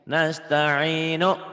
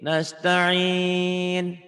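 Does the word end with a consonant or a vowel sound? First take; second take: vowel; consonant. First: The word ends on a short vowel after n. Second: The word ends on n with longer vowel. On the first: The word is read in flowing speech. "Saya bacanya kalau apa adanya kan gini" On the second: The reading stops at this word. "dihentikan jadi nasta'in"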